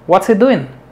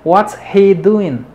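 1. Las palabras se unen rápido, y la h se omite. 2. Las palabras se dicen despacio y por separado. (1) "Así nada más" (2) "No pierden tiempo en decir"

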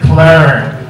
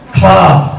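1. Nguyên âm giống âm trong từ "her". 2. Nguyên âm giống âm trong từ "car". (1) "maybe American speakers will say clerk" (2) "Clark in British English"

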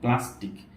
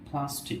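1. p-তে বাতাসের কোনো ফুঁ নেই। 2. p-তে বাতাসের জোরালো ফুঁ আছে।

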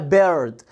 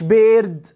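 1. الحرف ده صوته er، فيه الراء. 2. الحرف ده صوته ee طويل. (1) "اسمها بيرد" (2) "ما اسمهاش بيرد"

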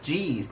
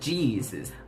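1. คำนี้ออกเสียงแบบย่อ 2. คำนี้ออกเสียงแบบเต็มคำ (1) "หรือสั้นๆว่า" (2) "เขาอ่านว่า"

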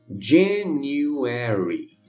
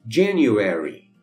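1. A palavra é dita devagar. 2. A palavra é dita em velocidade normal. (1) "uma vez devagarinho" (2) "a outra normal"

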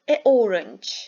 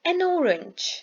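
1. Ses, belirteç ile isim arasında kesilir. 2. Belirteç, isme kesilmeden akıcı bir şekilde bağlanır. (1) "Gördüğünüz gibi a orange dediğimizde kesiliyor" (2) "An apple dediğimiz zaman hiçbir kesilme olmadan akıcı bir şekilde söylüyoruz"

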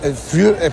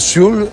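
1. La palabra empieza con sonido F. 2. La palabra empieza con sonido S.

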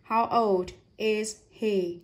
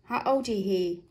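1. Mỗi từ được đọc riêng, không nối âm. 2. Các từ được nối âm trôi chảy vào nhau. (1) "Nếu không nối âm chúng ta sẽ đọc là" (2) "Và đọc nối âm sẽ trôi chảy hơn này"

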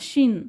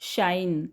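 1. हा स्वर लहान 'i' आवाज आहे. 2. हा स्वर 'ai' आवाज आहे. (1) "शिन शिन समथिंग वेअर्ड" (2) "मग आई करून पहा"

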